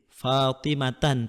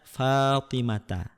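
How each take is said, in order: First: The word ends with an added n sound. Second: The word ends on a vowel without n. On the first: The speaker calls it wrong. "Fatimatan tidak boleh" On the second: The speaker calls it right. "Tetapi harus dibaca Fatimata"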